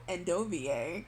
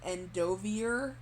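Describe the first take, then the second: First: The name is said in a French style. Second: The name is said in an English style. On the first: The name is treated as French. The speaker calls it right. "no, because French. So" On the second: This is the official pronunciation. The speaker calls it wrong. "the official pronunciation is"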